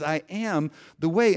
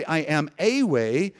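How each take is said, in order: First: Full "am", unstressed "the", weight on "way"; stress on WAY. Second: "a" stressed and said as a full "ay". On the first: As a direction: land firmly on "way" as the true claim. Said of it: "He says". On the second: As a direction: hit "a" as if only one of many. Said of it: "So Jesus doesn't say". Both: Shown as a demonstration.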